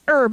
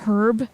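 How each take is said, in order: First: The word starts with a vowel, no H. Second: The word starts with an audible H sound. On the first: The speaker calls it right. "you pronounce it herb" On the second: The speaker calls it wrong. "not herb"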